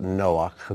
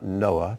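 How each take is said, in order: First: The name ends with a raspy ch sound. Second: The name ends with a plain vowel sound. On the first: The speaker calls it right. "I pronounce it Noach, because it ends in a ch sound" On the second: The speaker calls it wrong. "not Noah"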